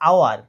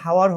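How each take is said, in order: First: The word begins with a vowel, no h. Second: The word begins with an audible h sound. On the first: The speaker calls it right. "এটার উচ্চারণ হবে আওয়ার" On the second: The speaker calls it wrong. "এটার উচ্চারণ হাওয়ার হবে না"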